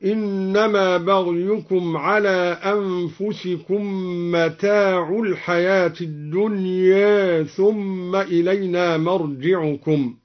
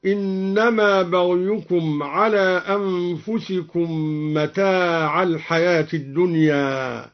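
First: Slow recitation, متاع ending in u, "mataa'u"; متاع in the nominative. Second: Said in the usual way. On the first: Shown as a demonstration. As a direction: put a clear damma on the end of متاع. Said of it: "برفع متاع هكذا". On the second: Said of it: "برفع متاع".

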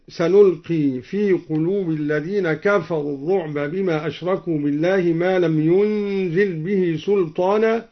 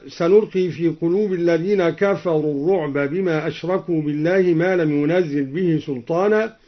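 First: ينزل said "yunzil", single z after n; lightened ينزل. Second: Said in the usual way. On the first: Shown as a demonstration. Teacher showing al-Duri's reading, ينزل lightened to "yunzil". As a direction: recite ينزل without doubling, as "yunzil". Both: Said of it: "قرأ الدوري بتخفيف ينزل".

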